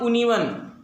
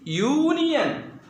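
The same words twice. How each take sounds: First: The word starts with a plain vowel, no 'y'. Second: The word starts with a 'y' sound before the vowel. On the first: The speaker calls it wrong. "It's not union" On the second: The speaker calls it right. "Your sound is there again"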